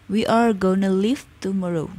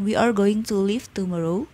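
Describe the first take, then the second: First: Going to is reduced to gonna. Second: Going to is said in full. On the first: It is the casual, slang form. "lebih ke bahasa slangnya menjadi gonna" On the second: It is the standard form. "sama artinya dengan"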